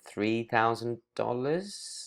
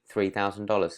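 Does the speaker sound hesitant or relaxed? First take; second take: hesitant; relaxed. First: It is said in a hesitant, uncertain tone. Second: It is said in a relaxed, casual tone. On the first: The price may be too much or a mistake. The speaker calls it wrong. "Now you're making it sound like, oh, uh, three thousand dollars is suddenly maybe a lot of money" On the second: The price is normal and nothing to worry about. The speaker calls it right. "There's no big deal in that tone"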